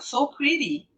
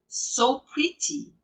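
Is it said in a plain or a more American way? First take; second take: American; plain. First: It is said in a more American way. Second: It is said plainly, not Americanized.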